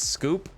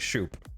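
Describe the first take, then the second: First: The name begins with an 'sk' sound. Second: The name begins with an 'sh' sound. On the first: "Then take out the H, man" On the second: "it's definitely shoop"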